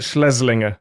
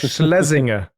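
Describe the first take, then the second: First: The name has an extra L sound inside. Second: The name has no extra L sound inside. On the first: The speaker calls it wrong. "You put another L in there again" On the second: The speaker calls it right. "there you go"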